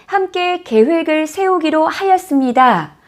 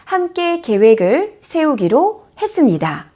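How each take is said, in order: First: The final ending is said in full. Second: The final ending is said contracted. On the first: It sounds like written language. The speaker calls it wrong. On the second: It sounds like relaxed spoken language. The speaker calls it right.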